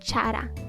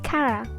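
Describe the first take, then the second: First: The name begins with a CH sound. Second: The name begins with a hard K sound. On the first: The speaker calls it wrong. "not Chara" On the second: The speaker calls it right. "That's why it's pronounced as Kara"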